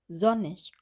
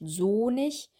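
First: The o vowel is short. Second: The o vowel is long. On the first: The speaker calls it right. "sondern sonnig" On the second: The speaker calls it wrong. "nicht sonig"

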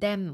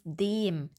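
First: The e vowel is swallowed and reduced. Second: The e vowel is long and clear. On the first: The speaker calls it wrong. "gerne etwas verschluckt" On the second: The speaker calls it right. "Aber es ist dem"

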